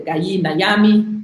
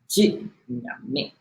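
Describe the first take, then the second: First: The first word has two syllables, starting with g. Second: The first word is one syllable, a j sound. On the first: The speaker calls it wrong. "it is not the Gayi Nayami" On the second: The speaker calls it right. "G Y, is G Y, J"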